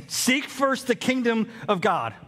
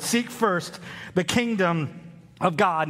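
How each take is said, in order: First: Said in the usual way. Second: Seek first the kingdom said slowly, each word weighted; slow emphatic reading. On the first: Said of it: "worldview setting statement". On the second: Shown as a demonstration. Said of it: "Look again at the sixth word".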